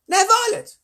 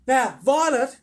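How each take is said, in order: First: Very high, loud call to a daughter; mother's loud warning, pitched extremely high; scolding mother. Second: High, loud motherly admonishment; mother's raised-voice warning; mother calling over. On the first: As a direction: call out piercingly high to your child. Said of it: "Oh, that's her mother". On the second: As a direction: call across the room to your daughter. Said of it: "Missus Beauregard said from a far corner". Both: Acted.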